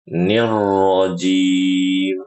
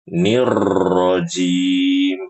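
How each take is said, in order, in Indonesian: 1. Huruf r hampir tidak digetarkan sama sekali. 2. Huruf r digetarkan panjang dan kuat. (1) "Versi yang fasih, bacanya seperti tadi" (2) "Yang tidak boleh getarnya terlalu banyak"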